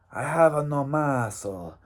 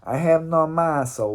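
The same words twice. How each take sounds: First: A half-hearted Mexican accent on "I have no muscle", barely there; weak mock Mexican accent. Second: A second go at the Mexican accent on "I have no muscle", a bit more committed; retried Mexican accent. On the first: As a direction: try the Mexican accent and fall short. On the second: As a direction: push the mock Mexican accent harder. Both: Shown as a demonstration. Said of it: "that's not a good Mexican accent".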